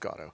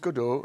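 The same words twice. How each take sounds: First: The name is pronounced the English way. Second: The name is pronounced the French way. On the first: "in English it's Godot" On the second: "in French it's Godot"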